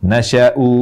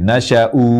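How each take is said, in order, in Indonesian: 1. Vokal pertama pendek, berakhir dengan u panjang. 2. Vokal pertama pendek, berakhir dengan u panjang.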